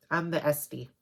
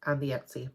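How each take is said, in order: First: "Etsy" said as "Es-tee"; aunt's mispronunciation. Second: Said in the usual way. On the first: Retold or imitated. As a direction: swap the t and s in "Etsy", imitating an aunt. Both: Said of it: "as my aunt would say".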